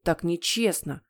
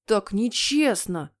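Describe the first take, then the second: First: Understated, grumpy complaint; sulky frown. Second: Put-on drawn-out childish wail; howling. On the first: Acted. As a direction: grumble it as a sulking boy. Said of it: "нахмурился Генри". (хмуро, обиженно) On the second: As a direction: wail it slowly as a wronged boy. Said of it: "взвыл он". (протяжно взвыв)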